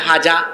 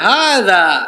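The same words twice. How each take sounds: First: The first consonant is a plain j sound. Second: The first consonant is a soft th sound. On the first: The speaker calls it wrong. "বলতেছে" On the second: The speaker calls it right. "জিব্বার আগাকে দাঁতের আগায় লাগিয়ে বলতে হয়"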